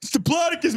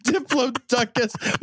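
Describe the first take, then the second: First: Diplodocus with stress on plod, di-PLOD-ocus; laughing correction to di-PLOD-ocus; corrected Diplodocus. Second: Diplodocus said slowly, stress on plo; drawn-out dip-LO-do-cus; slow careful Diplodocus. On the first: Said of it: "It's Diplodocus, man". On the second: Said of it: "My ten-year-old would throw something at you". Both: Shown as a demonstration.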